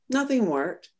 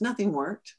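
First: A stronger second "Nothing worked."; emphatic repeat. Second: Said in the usual way. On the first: Real, not acted.

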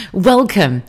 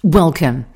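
First: Higher, louder welcome, the bigger take. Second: Big, loud welcome that falls at the end; grand welcome. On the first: Host trying a better welcome, higher and louder. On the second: Host greeting new listeners with a loud welcome. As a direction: welcome them warmly and loudly. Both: Shown as a demonstration. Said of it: "let me welcome you off a little bit better".

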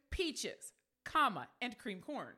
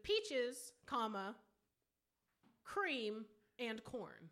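First: "peaches" drawn out, then "cream corn" run together; two-item list. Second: "peaches", pause, "cream", then "and corn"; pauses as a list. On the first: Correcting co-host's reading, "peaches" apart and "cream corn" together. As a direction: break after "peaches", join "cream corn" as one item. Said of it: "so what is it then". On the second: Spelling out co-host's bet, "peaches", "cream", "corn" set apart by pauses. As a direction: separate "peaches", "cream" and "corn" as three items. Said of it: "you're betting that they've made an error". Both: Shown as a demonstration.

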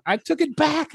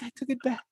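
First: High-pitched laugh through words; squeaky laughing take; snorting laughs. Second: Fading into soft laughter; laughing, much softer; snorting laughs. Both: Real, not acted. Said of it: "did I just snort".

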